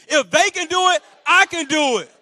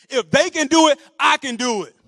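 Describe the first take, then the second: First: High, loud, emphatic mantra; said with conviction. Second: Loud "If they can do it", firm "I can do it"; call for repetition. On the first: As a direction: say it like you truly mean it. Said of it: "Say it like you mean it". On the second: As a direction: lead the crowd, punching "they" and "I". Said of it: "repeat after me". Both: Shown as a demonstration.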